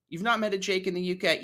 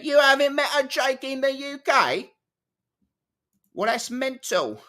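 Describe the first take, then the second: First: Quick, higher put-on British voice; British accent, said briskly. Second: Very high, louder, hammed-up British voice; British accent. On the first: Trying British accent, first take. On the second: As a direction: squeal it in an exaggerated British accent. Hammed-up second British take.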